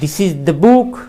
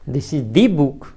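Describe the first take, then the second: First: The vowel in 'the' is short. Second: The vowel in 'the' is lengthened and stressed. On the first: It points out this particular book. "और भी strong form देना हो इस तरह से" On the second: It is exactly the book already mentioned. "और ज्यादा हम जोर दे रहे हैं तो दी, इस तरह से और एक मात्रा बढ़ा दी है"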